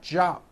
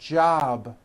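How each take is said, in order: First: The final consonant is unvoiced, like a P. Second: The final consonant is voiced, like a B. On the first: The speaker calls it wrong. "It's not jop with an unvoiced P" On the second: The speaker calls it right. "which is a voiced sound"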